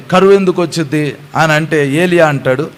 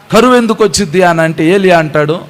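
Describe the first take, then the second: The two takes are said the same way.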